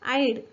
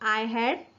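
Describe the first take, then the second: First: The words merge into one short syllable. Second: Both words are said in full, separately. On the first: "याचा कसा उच्चार होईल आय हॅडचा आईड"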